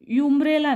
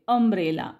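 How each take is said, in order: First: The word begins with a 'yoo' sound. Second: The word begins with a short 'uh' sound. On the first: The speaker calls it wrong. "युम्ब्रेला नाही" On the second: The speaker calls it right. "अ वाचायचंय"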